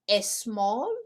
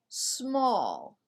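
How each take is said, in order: First: An extra e vowel comes before the s. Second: The word starts directly with the s. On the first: The speaker calls it wrong. "we do not use the letter E as a help to pronounce the letter S" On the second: The speaker calls it right. "It's small"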